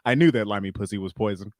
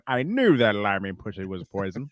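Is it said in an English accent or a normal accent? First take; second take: normal; English. First: It is said in the speaker's normal accent. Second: It is said in a put-on English accent.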